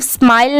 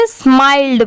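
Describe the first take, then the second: First: स्माइल ending on the "l"; final D dropped. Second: स्माइल्ड ending in a clear "ld"; careful स्माइल्ड, closed on ड; final D sounded. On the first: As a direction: leave the "d" off स्माइल. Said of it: "इसे सिर्फ स्माइल नहीं पढ़ेंगे". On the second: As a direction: add a "d" after the l in स्माइल्ड. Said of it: "इसे स्माइल्ड पढ़ेंगे". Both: Shown as a demonstration.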